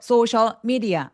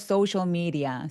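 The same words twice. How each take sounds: First: The two words are said with a break between them. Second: The two words are linked together as one chunk. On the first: The speaker calls it wrong. "아니고" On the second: The speaker calls it right. "그래서 연결하자"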